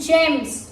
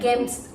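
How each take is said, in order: First: The word begins with a soft j sound. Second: The word begins with a hard g sound. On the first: The speaker calls it right. "G has become J" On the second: The speaker calls it wrong. "It's not gems"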